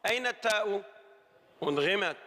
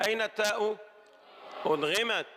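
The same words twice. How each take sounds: The two takes are said the same way.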